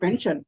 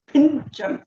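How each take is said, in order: First: It is said 'pension' with an 'e' vowel. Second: It is said 'pinchan' with an 'i' vowel. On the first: This is the English pronunciation. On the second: This is the local Telugu pronunciation. "కానీ ఇక్కడ మనము పింఛన్"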